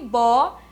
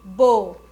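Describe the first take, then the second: First: The vowel is said open. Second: The vowel is said closed.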